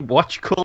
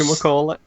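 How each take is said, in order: First: The word is clipped to two short syllables. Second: Every syllable of the word is carefully pronounced. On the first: "I don't say watch colour" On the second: "you just overpronounce it right there"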